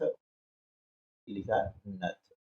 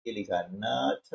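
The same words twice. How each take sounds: First: Very slow drawn-out reading. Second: Slow, careful reading of the word नथ. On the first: Teacher to young pupils, drawing out नथ very slowly and softly. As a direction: stretch each syllable, soft and very slow. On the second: Teacher to young pupils, reading नथ slowly. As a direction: read it out slowly for the class. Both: Shown as a demonstration.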